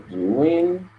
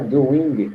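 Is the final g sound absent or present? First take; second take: absent; present. First: The word ends without a hard g sound. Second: The word ends with a clear g sound. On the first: "eu não estou escutando o senhor falar esse G do final" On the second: "não é doing"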